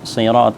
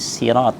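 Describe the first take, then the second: First: The first consonant is a heavy, emphatic s. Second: The first consonant is a light, plain s. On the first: "Sebagian membaca dengan huruf sin. Jadi bukan sirat" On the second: "Sebagian membaca dengan huruf sin. ... tapi sirat"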